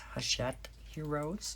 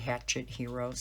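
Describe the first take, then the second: First: The first word is said in a French-like way. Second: The first word sounds like the English word hatchet. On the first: The speaker calls it right. "It's Hachette Heroes" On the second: The speaker calls it wrong. "everybody's pronouncing that wrong when you say Hatchet Heroes"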